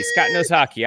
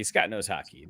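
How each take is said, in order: First: Higher, sarcastic sing-song; mocking emphasis. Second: Much softer, lower, under the breath; muttered aside. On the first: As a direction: repeat it with a sarcastic lift. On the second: Acted. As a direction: drop it away, muttering to yourself. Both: Mocking repeat of a teammate.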